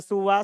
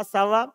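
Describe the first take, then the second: First: "suwa" with a u in the first syllable; first reading with u. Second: "sawa" with an a in the first syllable; alternative reading with a. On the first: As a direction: say "suwa", opening on su-. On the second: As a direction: say "sawa", opening on sa-. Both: Shown as a demonstration. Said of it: "bisa dibaca suwa, sawa".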